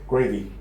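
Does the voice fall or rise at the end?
fall. The pitch falls at the end. It sounds like a rude order to just eat. "gravy with a falling intonation"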